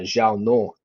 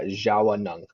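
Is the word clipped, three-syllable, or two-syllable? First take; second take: clipped; three-syllable. First: The final ng sound is dropped. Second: An extra a vowel makes three syllables. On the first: Some people shorten the word. "drop like the N the N G at the end" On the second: This is how some dialects say it. "there's an A in between the W and the N"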